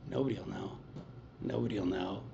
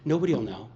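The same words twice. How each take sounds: First: "Nobody'll know" said much softer and lower, a sly murmur; coaxing murmur. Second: Said in the usual way. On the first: Retold or imitated. Craving voice in his head tempting him, hushed. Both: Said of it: "It's like".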